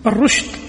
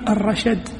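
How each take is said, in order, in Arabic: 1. يُقال rushd، بضمة ولا حركة ثانية. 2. يُقال rashad، بفتحة بعد الحرفين. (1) "بضم الراء وسكون الشين" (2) "بفتحهما"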